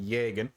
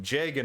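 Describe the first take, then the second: First: The word begins with a Y sound. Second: The word begins with a J sound. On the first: The speaker calls it wrong. "instead of a as a Y" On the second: The speaker calls it right. "pronounced as a J by the community"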